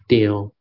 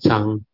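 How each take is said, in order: First: The syllable sounds like 'tio', Hokkien style. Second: The syllable sounds like 'chang', Mandarin style. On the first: "In Hokkien, they call it Tio" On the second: "In Mandarin is Chang"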